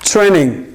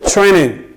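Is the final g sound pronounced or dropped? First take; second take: dropped; dropped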